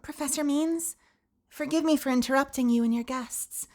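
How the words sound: It is read in a put-on high character voice.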